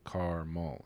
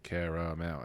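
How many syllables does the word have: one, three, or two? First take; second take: two; three. First: The word is said with two syllables. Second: The word is said with three full syllables. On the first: "It's two syllables" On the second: "It's three syllables"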